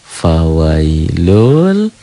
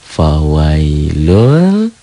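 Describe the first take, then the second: Both takes have the same delivery.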